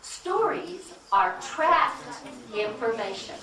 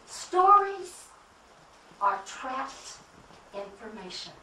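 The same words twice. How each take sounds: First: Slow, weighing every word, "trapped" leaned on; slow deliberate repeat. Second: "Stories" shouted out, the rest dropping away; stress on Stories. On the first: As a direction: spell it out slowly like a key line. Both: Shown as a demonstration. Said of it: "Say that again".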